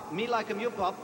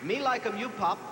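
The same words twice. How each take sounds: The two takes are said the same way.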